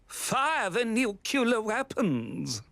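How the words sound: It is said in a cheerful, jolly way.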